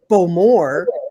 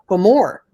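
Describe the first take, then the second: First: The stress is on the first syllable. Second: The stress is on the second syllable. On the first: The speaker calls it wrong. "I hear everybody saying" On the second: The speaker calls it right. "The emphasis is on the more"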